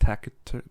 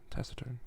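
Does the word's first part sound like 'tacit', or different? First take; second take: different; like tacit. First: The first part does not sound like 'tacit'. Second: The first part sounds like the word 'tacit'. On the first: The speaker calls it wrong. "Not taciturn. That sounds weird" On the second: The speaker calls it right. "Like like tacit. Taciturn, yeah"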